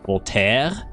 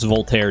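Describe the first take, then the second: First: The R is made far back in the throat. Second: The R is a plain English R. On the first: "I tried to force my tongue back as far as it would go" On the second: "pronounced exactly how it looks"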